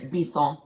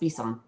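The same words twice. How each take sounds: First: The name is said with a French pronunciation. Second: The name is said with an English pronunciation. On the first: "if you're going to be French, it's Bisson" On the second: "but it's Bisson"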